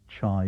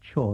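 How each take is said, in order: First: The vowel sounds like eye. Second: The vowel sounds like oy. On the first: This is the form heard in local dialect. "it's pronounced in dialect as chai" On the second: This is another form heard in local dialect. "or even as choi"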